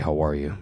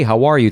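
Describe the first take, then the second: First: It is said in a slightly altered voice. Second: It is said in a normal speaking voice. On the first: He is speaking as the superhero. "all he did was just change it a little" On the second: He is speaking as his everyday self. "he went from being like"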